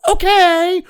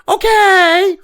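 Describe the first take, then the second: First: A drawn-out, higher mock "Okay"; mock compliant okay. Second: Slow, high, drawn-out "Okay"; mock compliant okay. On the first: Refusing to meekly nod along: mock okay. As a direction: play the meek pushover agreeing. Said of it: "sit there and go". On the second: Mother's advice to just agree: mock okay. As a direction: sound like a child meekly going along. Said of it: "my mother told me".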